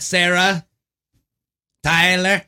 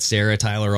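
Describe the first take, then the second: First: It is said in a Borat impression. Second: It is said in his normal voice.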